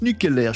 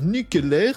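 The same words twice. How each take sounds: First: It is said in the speaker's normal voice. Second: It is said in an imitated cartoon-character voice. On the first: The speaker calls it right. "ça se prononce nucléaire" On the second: The speaker calls it wrong. "Je sais super bien euh, imiter Homer Simpson"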